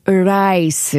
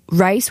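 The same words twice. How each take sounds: First: "rice" said as "uh-rice", with an uh before the R. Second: Said in the usual way. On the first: Shown as a demonstration. Host demonstrating the book's rule for R words, uh before R. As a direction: lead into "rice" with a drawn-out uh. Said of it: "add an uh sound before saying". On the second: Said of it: "For example, rice would be".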